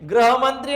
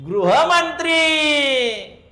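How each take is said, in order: First: The first syllable is pronounced 'gra'. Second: The first syllable is pronounced 'gru'. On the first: The speaker calls it wrong. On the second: The speaker calls it right.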